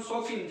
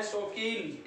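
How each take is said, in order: First: शौकीन said quickly, with the ईन cut short; hurried mispronunciation. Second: शौकीन said slowly, with a long-held ee in कीन. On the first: Teacher showing students the common slip, शौकीन said too quickly. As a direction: rush through शौकीन with a short final vowel. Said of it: "जल्दी से बोल देते हैं, गलत". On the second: Teacher correcting students' pronunciation, शौकीन with a long, drawn-out ee. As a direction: stretch the final ईन of शौकीन. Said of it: "बड़ी मात्रा है". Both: Shown as a demonstration.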